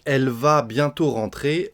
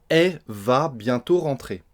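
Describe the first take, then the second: First: The first word keeps its final l sound. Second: The first word is just a vowel, no l.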